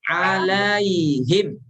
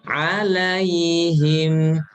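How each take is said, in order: First: The final m sound is cut off abruptly. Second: The final m sound flows on softly. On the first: The speaker calls it wrong. "himnya jangan diputus, jangan diputus gini" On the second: The speaker calls it right. "Lin, lembut"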